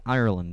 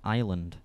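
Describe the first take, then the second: First: The word begins with an 'ire' sound. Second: The word sounds like 'island', beginning with 'eye'. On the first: The speaker calls it right. "It's IRE at the start" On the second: The speaker calls it wrong. "she says fucking island. Like an island"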